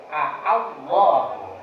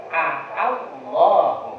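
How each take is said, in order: The two takes are said the same way.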